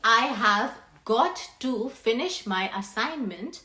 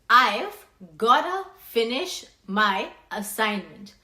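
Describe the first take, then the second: First: The words I have got to are said in full. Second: The words are contracted to I've gotta. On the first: "instead of saying" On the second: "you will say"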